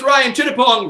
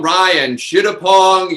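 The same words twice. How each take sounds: First: Said in the usual way. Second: "Ryan Chittapong" drawn out slowly and shouted; announcer callout. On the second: Real, not acted. Host calling out the cast member, slow shouted callout. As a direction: boom the name like a ring announcer. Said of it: "number three is Ryan Chittapong".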